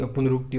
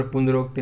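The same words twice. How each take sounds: First: पुनरुक्ति with a short u in ruk; correct form. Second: पुनरुक्ति said as punarokti, with o; incorrect form. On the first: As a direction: say punar-ukti for पुनरुक्ति. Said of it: "होता है". (सही रूप पुनरुक्ति, 'रु' के साथ) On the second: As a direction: put an o sound before kti in पुनरुक्ति. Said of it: "नहीं होता". (गलत रूप पुनरुक्ति, 'रो' बोलकर) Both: Shown as a demonstration.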